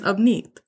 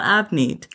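First: The name has its native Punjabi vowel sounds. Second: The name has anglicized English vowel sounds. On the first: The speaker calls it right. "but it's actually my name is Avneet" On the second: The speaker calls it wrong. "not Avneet"

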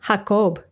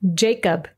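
First: It is said with Spanish pronunciation. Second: It is said with English pronunciation. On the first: "I'll read the Spanish pronunciation first" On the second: "followed by the English pronunciation"

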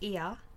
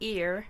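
First: It has no R sound, Australian style. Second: It ends with an R sound, American style.

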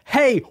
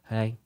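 First: It is said with high, lively energy. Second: It is said with low, flat energy.

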